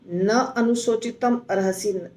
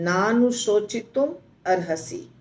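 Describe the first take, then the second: First: Na and anushochitum are said as separate words. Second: Na and anushochitum are run together into one word. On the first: The speaker calls it wrong. "थोड़ा राग नहीं बैठता है" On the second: The speaker calls it right. "नानुशोचितम अर्हसि ऐसे बोलेंगे"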